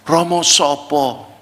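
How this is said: It is asked in a softened, gentle tone.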